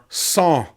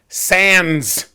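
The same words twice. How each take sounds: First: The final consonant of sans is silent. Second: The final consonant of sans is pronounced. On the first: The speaker calls it right. "you don't pronounce the final consonant" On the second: The speaker calls it wrong. "you are not sans hat"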